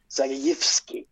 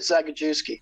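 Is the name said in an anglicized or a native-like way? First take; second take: native-like; anglicized. First: The name is said in a native-like way. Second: The name is said in an anglicized way. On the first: The speaker calls it right. "that's kind of how you say his name" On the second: The speaker calls it wrong. "I always said Zagajewski, but that's not it at all"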